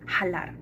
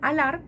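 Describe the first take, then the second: First: The word begins with an audible h sound. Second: The word begins directly with a vowel. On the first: "la H no es muda" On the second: "en vez de"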